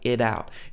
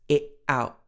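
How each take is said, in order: First: The t is a quick tapped d-like sound. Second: The t is a glottal stop in the throat. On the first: "but it's not like it out. It's not like the, the tapped d sound, like in American English" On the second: "It's it out"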